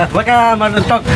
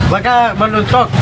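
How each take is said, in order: No difference in how they are said.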